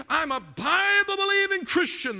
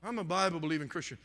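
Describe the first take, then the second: First: High, loud mock congregant's boast; imitating a loud, stretched declaration of faith; imitated revival shout. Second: Said in the usual way. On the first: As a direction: shout it like a fervent churchgoer being quoted. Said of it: "how many times have we heard this".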